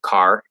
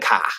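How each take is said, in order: First: It is said in a standard American accent. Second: It is said in a Northeastern regional accent. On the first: "instead of "car."" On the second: "They say, um, "Get in the car""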